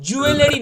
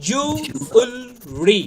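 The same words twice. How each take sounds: First: জুয়েলারি as "ju-e-le-ri"; louder four-syllable জুয়েলারি; common mispronunciation. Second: Slow জুয়েলারি as "ju... ul... ree"; three stretched syllables in জুয়েলারি; spaced-out model of জুয়েলারি; correct pronunciation. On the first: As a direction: sound the extra "e" in জুয়েলারি. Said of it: "জুয়েলারি না কিন্তু". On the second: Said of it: "এর উচ্চারণ হবে হচ্ছে". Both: Shown as a demonstration.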